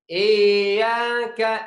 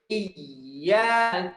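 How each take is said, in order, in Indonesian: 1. Kata itu dibaca panjang. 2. Kata itu dibaca pendek dan tegas. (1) "Yang baca yang suka baca salah ... Dibaca panjang" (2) "Jadi harus seperti"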